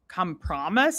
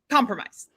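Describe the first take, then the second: First: The first part sounds like the word come. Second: The first part is the ordinary com sound. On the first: The speaker calls it wrong. "he was like, come promise" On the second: The speaker calls it right. "okay, so you did know it"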